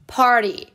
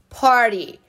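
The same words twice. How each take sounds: The two takes are said the same way.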